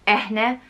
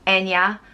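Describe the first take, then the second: First: The middle consonant is an h sound. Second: The middle consonant is a y sound. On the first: "or Eh-ne" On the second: "It's usually pronounced En-ya"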